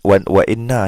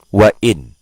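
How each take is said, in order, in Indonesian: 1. Kata ini berakhir dengan n ganda dan vokal. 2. Kata ini berakhir dengan n polos, tanpa vokal. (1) "bukan sabdu tu betul kan tu"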